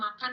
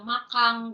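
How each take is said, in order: First: It ends in a plain n sound. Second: It ends in an ng sound.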